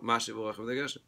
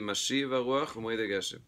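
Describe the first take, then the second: First: The stress in Mashiv is on the first syllable. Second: The stress in Mashiv is on the last syllable. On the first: "by Americans, usually they'll say" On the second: "it's clearly"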